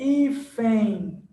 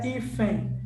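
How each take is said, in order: First: "hífen" stretched slowly into a nasal ẽi ending; correct nasal demo. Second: "hífen" cut short without the final nasal glide; wrong reading demo. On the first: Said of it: "É um som nasalizado". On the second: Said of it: "não é hífen". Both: Shown as a demonstration.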